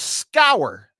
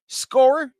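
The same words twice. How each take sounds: First: Scour said to rhyme with hour, skow-er; first pronunciation. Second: Scour said like score, asked with a high rise; alternative pronunciation. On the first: Host naming the band for viewers, says Scour as skow-er. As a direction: Scour as SKOW-er, falling, like sour. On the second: Host second-guessing the band name, Scour like score with a questioning rise. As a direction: Scour as SKORE, a questioning try, much higher. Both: Shown as a demonstration. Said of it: "Depends on how you wanna say it".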